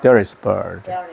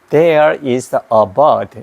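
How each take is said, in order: First: It sounds like native English pronunciation. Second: It sounds like a Korean accent. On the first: The speaker calls it right. "이러니까 뭐 영어 같다" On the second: The speaker calls it wrong. "한국 발음이에요"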